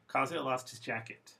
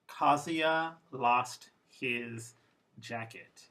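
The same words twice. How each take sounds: First: The small words are reduced and run together. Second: Each word is said fully and clearly.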